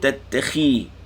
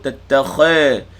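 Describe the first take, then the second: First: The vowel after kh sounds like 'i'. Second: The vowel after kh sounds like 'a'. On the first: The speaker calls it right. "Kha bagi bawah" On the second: The speaker calls it wrong. "Jangan sebut tattakha"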